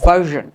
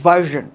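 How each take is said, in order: The two takes are said the same way.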